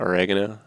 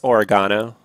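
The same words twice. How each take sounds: First: The word is said in an American accent. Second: The word is said in an Australian accent. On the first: "not oregano" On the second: "their Australian accents. So it's oregano"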